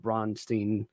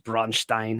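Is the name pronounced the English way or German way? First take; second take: English; German. First: The name is pronounced the English way. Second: The name is pronounced the German way.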